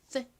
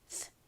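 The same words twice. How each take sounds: First: The th sound is crisp and clearly articulated. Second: The th sound is soft, like escaping air. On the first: This is how th sounds at the start of a word. "앞쪽에 오면 보통 th, th 이렇게 명확하게 소리가 나는데" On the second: This is how th sounds at the end of a word. "끝부분에 오면 바람 빠지듯이 소리가 납니다"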